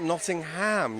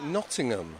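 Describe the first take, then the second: First: It is said with an American pronunciation. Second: It is said with a British pronunciation. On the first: The speaker calls it wrong. "not Nottingham" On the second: The speaker calls it right. "you would call it Nottingham"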